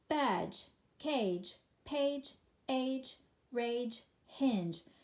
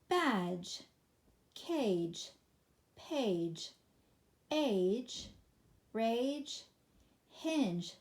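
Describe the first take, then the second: First: The list is read at top speed. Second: The list is read at a quicker pace. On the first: "Third time, fastest"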